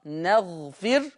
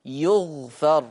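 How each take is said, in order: First: نغفر said as naghfir, starting with an open nun; نغفر recited with nun and a kasra on fa; Hafs reading. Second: يغفر said slowly as yughfar, u on ya and open fa; يغفر recited slowly with ya instead of nun; Warsh reading. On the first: Teacher giving the Hafs reading, careful recitation. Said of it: "يبقى حفص بيقرأ". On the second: Teacher contrasting Warsh with Hafs, slow careful recitation. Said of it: "وورش يقرأ". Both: Shown as a demonstration.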